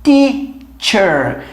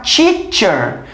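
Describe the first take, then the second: First: Drawn-out teacher, the right way; correct teacher. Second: Teacher with tongue tip, hard Portuguese t; wrong teacher. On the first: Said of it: "tem que ser teacher". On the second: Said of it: "Você não pode falar teacher". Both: Shown as a demonstration.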